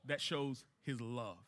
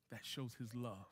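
First: Soft statement. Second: The same line, much softer and close to a whisper; hushed repeat. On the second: Pastor to congregation, hushed and tender. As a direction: let it sink in quietly, almost to yourself. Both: Shown as a demonstration. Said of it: "what does that show".

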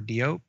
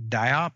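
First: Diop said DEE-ope; alternative pronunciation. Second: Diop said DYE-op; alternative pronunciation. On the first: Unsure host offering a second guess at the surname, Diop as DEE-ope. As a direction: say Diop with "dee" first, then a long o. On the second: Unsure host trying out the actress's surname, Diop as DYE-op. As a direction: say Diop with a long "eye" in the first syllable. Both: Shown as a demonstration. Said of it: "as I have heard pronounced".

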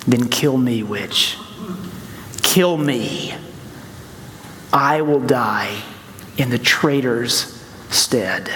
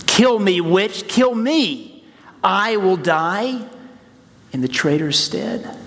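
First: Slow, solemn and resolute; lion's solemn voice. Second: Impassioned cry. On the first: A narrator's reading. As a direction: offer your life, calm and slow. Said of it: "steps forward and says". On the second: Acted. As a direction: cry it out with fervor. Repeats Aslan's words with fervor.

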